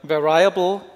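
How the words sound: It is pronounced like a German word. The speaker calls it wrong. "we tend to pronounce it like as a German word"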